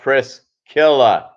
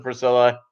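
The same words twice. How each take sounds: First: Slow, careful Pris-KIL-la with the C sounded as K; teaching the right way to say "Priscilla"; Priscilla with a hard C. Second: Plain "Priscilla" with a silent C, said as Pri-sil-la; the usual way to say "Priscilla"; Priscilla soft C. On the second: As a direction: say "Priscilla" with an S sound, not a K. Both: Shown as a demonstration. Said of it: "It's pronounced Priscilla".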